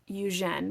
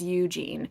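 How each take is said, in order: First: The name is pronounced the French way. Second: The name is pronounced with an American accent. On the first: "because he is French ... it is pronounced" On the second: "in our American accent, we would read this as"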